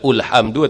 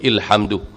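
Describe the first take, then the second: First: The word begins with a u vowel. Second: The word begins with an i vowel. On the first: "Tak boleh baca ulhamdu" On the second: "ataupun ilhamdu"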